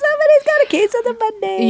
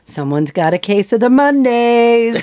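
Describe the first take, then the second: First: It is said in a put-on, high-pitched voice. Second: It is said in a normal voice.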